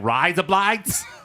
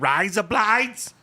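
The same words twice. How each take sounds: First: It is said in the speaker's ordinary accent. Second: It is said in a put-on Australian accent. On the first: "so now it's like" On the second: "if I did add the accent, it's like"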